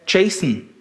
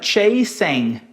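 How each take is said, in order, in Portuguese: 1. A palavra é dita rápido, com sílabas reduzidas. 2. A palavra é dita por completo, cada sílaba clara. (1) "Foi reduzido" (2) "não é chasing"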